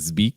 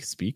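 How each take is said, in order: First: The first sound is buzzed, like a Z. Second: The first sound is hissed, like a clear S. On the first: The speaker calls it wrong. "I almost hear like a Z, like speak" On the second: The speaker calls it right. "watch out for that uh, S sound on speak"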